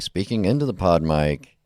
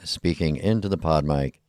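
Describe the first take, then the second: First: The voice sounds slightly brighter and clearer. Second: The voice sounds slightly muffled and duller. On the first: "without the pop filter on it. It should be a little bit brighter" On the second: "with the pop filter on"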